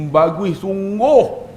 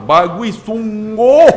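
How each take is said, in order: First: Very slow, stretched-out mock admiration; lingering, sing-song praise; admiring praise. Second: Louder, higher, drawn-out mock scolding; exasperated, stretched-out sarcastic tone; scolding praise. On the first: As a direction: draw out each word like a doting mother. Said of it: "nada dia tu lain". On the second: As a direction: praise the child as if telling them off. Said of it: "Tapi marah tu, dentak tu". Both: Shown as a demonstration.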